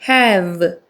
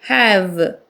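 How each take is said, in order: Both takes have the same delivery.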